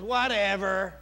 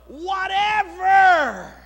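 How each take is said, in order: First: It is said dismissively, like a teenager. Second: It is said earnestly, with sincere weight.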